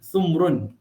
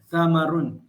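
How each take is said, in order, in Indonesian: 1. Vokal pertama adalah 'u', tidak ada vokal setelah m. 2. Vokal pertama adalah 'a', dengan dua suku kata terbuka. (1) "Huruf sa ni dia baca dhammah. Mim itu dimatikan" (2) "membaca dengan perkataan samarun"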